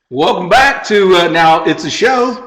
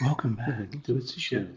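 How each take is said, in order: First: It is said loudly, almost yelling. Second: It is said in a soft, calm radio voice.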